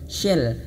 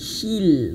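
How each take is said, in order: First: The vowel is a lax eh sound. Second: The vowel is a full ee sound. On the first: The speaker calls it wrong. "kalau misalkan kurang dipaksakan bibirnya maka akan terjadi suara shell saja" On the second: The speaker calls it right. "shell bukan shell tapi shil"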